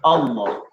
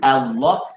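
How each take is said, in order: First: The first vowel sounds like 'oh'. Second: The first vowel sounds like 'ah'. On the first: The speaker calls it wrong. "yang asal hamzah data A tu jadi O bunyi" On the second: The speaker calls it right. "dia tak kata Allah"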